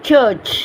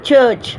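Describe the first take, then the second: The two takes are said the same way.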